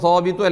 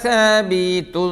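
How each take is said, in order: First: The first syllable is heavy and full-mouthed. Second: The first syllable is light and thin. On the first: The speaker calls it wrong. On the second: The speaker calls it right.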